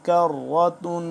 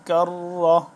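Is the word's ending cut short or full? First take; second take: full; cut short. First: The word ends with a full -tun ending. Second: The word ends cut short, without the final -tun. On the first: The reading continues without stopping. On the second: The reader stops at this word.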